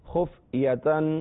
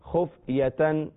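First: The word ends in a full -atan. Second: The word ends in a full -atan.

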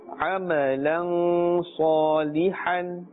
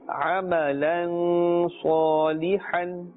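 Both takes have the same delivery.

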